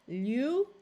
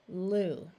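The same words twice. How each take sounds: First: The vowel sounds like 'yoo', with a y-glide. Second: The vowel sounds like plain 'oo', without a glide. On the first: The speaker calls it wrong. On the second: The speaker calls it right.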